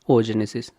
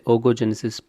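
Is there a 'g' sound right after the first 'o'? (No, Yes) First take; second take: No; Yes. First: No extra 'go' sound follows the first vowel. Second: An extra 'go' sound follows the first vowel. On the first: The speaker calls it right. "please consider it as a oogenesis" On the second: The speaker calls it wrong. "in some places I pronounced as a ogogenesis"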